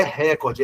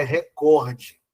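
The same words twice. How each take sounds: First: RÉcorde, com a tônica em RÉ; "recorde" dito como proparoxítona, RÉ-cor-de; stress errado na primeira sílaba. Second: ReCORde, alongado e lento na sílaba COR; "recorde" devagar, como paroxítona: re-COR-de; tônica correta em COR. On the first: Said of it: "Não é recorde". (sílaba forte no começo de "recorde": RÉ) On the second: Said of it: "é recorde". (sílaba forte no meio de "recorde": COR) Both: Shown as a demonstration.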